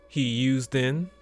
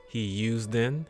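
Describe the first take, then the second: The two takes are said the same way.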